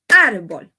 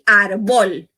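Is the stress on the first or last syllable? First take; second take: first; last. First: The stress is on the first syllable. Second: The stress is on the last syllable. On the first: The speaker calls it right. "C'est le commencé árbol" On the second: The speaker calls it wrong. "Mwen pa di árbol"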